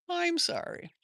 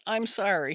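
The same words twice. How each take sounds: First: "I'm sorry" in a gentle high whisper. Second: Said in the usual way. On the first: Real, not acted. Comforting a hurt viewer.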